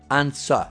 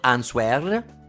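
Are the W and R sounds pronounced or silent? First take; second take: silent; pronounced. First: The W and R sounds are silent. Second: The W and R sounds are pronounced. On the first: The speaker calls it right. "Non c'è né W né R" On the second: The speaker calls it wrong. "non answer"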